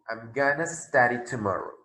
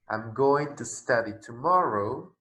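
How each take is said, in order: First: Going to is reduced to one word, gonna. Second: Going to is said in full, two words. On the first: This suits casual, informal speech. "frecuentemente se escucha como gonna" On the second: This suits formal or careful speech. "en lugar de decir"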